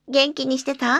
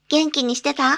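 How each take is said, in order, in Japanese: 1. 声は真後ろからです。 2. 声はまっすぐ正面からです。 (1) "背面中央、マイクから約50 センチ離れた距離から" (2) "正面中央約50 センチ離れた距離から"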